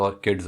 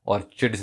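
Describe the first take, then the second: First: ऑर्किड्स said with a hard k sound; ऑर्किड्स with a firm k; correct pronunciation. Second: ऑर्चिड्स said with a ch sound, orchid like church; mispronounced ऑर्चिड्स with ch; wrong pronunciation. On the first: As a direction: say ऑर्किड्स properly, k like kite. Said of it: "ऑर्किड्स होता है". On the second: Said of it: "ऑर्चिड्स नहीं होता". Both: Shown as a demonstration.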